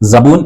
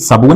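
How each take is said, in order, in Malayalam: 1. ഈ വാക്ക് z ശബ്ദത്തിലാണ് തുടങ്ങുന്നത്. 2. ഈ വാക്ക് s ശബ്ദത്തിലാണ് തുടങ്ങുന്നത്. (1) "സ എന്ന സൗണ്ടാണ് നമ്മൾ ഇംഗ്ലീഷിൽ സെഡ് പറയുക" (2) "ശരിക്കും സബൂൻ അല്ല"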